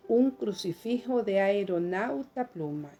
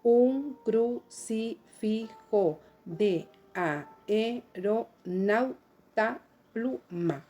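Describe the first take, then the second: First: "Un crucifijo de aeronauta pluma" flowing, a-e as one syllable; joined by synaeresis. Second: "Un crucifijo de aeronauta pluma" slowly, every syllable separate. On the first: Teacher applying synaeresis to the verse, "aeronauta" with a and e fused. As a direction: run "aeronauta" together as ae-ro-nau-ta. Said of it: "voy a unir dos sílabas". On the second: Teacher counting grammatical syllables with the class, "aeronauta" as a-e-ro-nau-ta, slow and separated. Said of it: "a contar sus sílabas gramaticales". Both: Shown as a demonstration.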